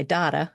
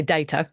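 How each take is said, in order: First: "data" with an ah, DAH-ta; Australian pronunciation. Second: "data" with an ay, DAY-ta; long "ay" in the first syllable of "data"; British pronunciation. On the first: Retold or imitated. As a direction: say "data" the Australian way, first vowel as in father. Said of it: "you're Australian, you say data". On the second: Shown as a demonstration. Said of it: "and we say data".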